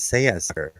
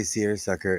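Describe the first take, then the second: First: Low-pitched British rendering, "Say a sucker"; lightly put-on British "Say a sucker", r's dropped; British accent. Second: Said in the usual way. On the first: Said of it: "Captain Peacock with his British accent. He says". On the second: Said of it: "every time you say seersucker".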